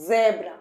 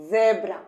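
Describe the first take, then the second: First: জেব্রা again with a buzzing z; voiced z demo. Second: জেব্রা with a buzzing z at the start; voiced z demo. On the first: Teacher repeating জেব্রা so the child copies. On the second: Teacher modelling জেব্রা for the child. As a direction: say জেব্রা and feel the z vibrate. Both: Shown as a demonstration. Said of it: "একটা কম্পন দেখতে পাচ্ছ".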